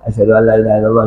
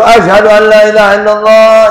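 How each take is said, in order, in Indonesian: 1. Diucapkan dengan pelan, hampir berbisik. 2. Diucapkan dengan keras, dengan suara dinaikkan. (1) "pelan dulu"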